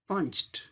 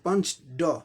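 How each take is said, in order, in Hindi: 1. शब्द का अंत t ध्वनि से होता है। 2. शब्द का अंत d ध्वनि से होता है। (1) "लेकिन सही उच्चारण पंच्ड" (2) "हम लोग बोलते पंच ड"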